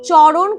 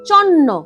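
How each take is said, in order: First: The middle sound is an r followed by n. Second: The middle sound is a long doubled n. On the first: This is the proper adult form. "চরণ কথাটা বলতে পারে না" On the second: A young child cannot yet say it properly. "তার জায়গায় তারা বলে চন্ন"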